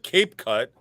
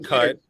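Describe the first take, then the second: First: The first vowel sounds like the vowel in 'cape'. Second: The first vowel sounds like the vowel in 'cap'. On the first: The speaker calls it wrong. "called it Cape Cut, which I even said it wrong" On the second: The speaker calls it right. "now I'm saying it CapCut"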